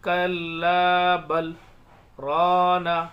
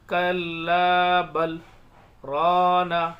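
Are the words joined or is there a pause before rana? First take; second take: pause; pause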